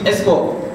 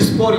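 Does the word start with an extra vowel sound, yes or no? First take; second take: yes; no. First: A short e vowel comes before the s. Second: The word starts directly with the s sound. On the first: The speaker calls it wrong. "ils disent esport" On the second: The speaker calls it right. "au lieu de dire sport"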